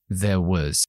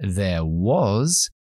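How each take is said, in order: First: The vowel in 'was' is reduced to schwa. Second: The vowel in 'was' is a full vowel. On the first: "vamos a decir there was" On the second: "En lugar de decir there was"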